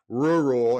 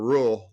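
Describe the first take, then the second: First: The word is pronounced in a standard way. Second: The word is pronounced in a regional way. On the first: The speaker calls it right. "I'm gonna try to say rural" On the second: The speaker calls it wrong. "instead of rural, like I like I say oil"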